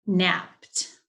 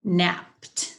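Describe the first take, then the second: No difference in how they are said.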